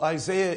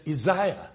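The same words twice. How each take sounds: First: Said in the usual way. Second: "Isaiah" said as ee-ZAI-ah; alternative pronunciation. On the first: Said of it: "Well, how's Isaiah spelled?". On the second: Retold or imitated. Objector defending his way of saying names, "Isaiah" as i-ZAI-a. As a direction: say "Isaiah" with an eye sound in the middle. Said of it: "you're pronouncing it wrong".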